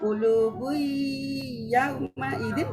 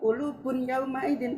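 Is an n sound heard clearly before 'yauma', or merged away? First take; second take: merged; heard. First: The n sound merges into the following y. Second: A clear n sound ends the first word. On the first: The speaker calls it right. "tapi kulubu yauma idin" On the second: The speaker calls it wrong. "Membacanya bukan kulubun yauma idin"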